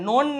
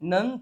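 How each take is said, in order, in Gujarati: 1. સ્વર 'oh' જેવો સંભળાય છે. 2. સ્વર 'uh' જેવો સંભળાય છે. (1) "નોન નહીં" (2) "નન થાય છે"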